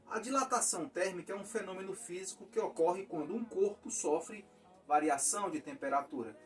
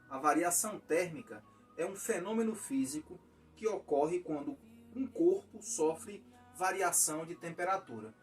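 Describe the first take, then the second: First: It is read fast. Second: It is read slowly.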